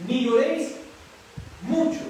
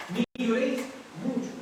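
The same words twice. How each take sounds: First: "lloréis" y "mucho" fuertes y agudos, subiendo; recalcado. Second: Said in the usual way. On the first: Shown as a demonstration. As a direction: sube y golpea "mucho". (énfasis creciente en "mucho") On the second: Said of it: "También aquí".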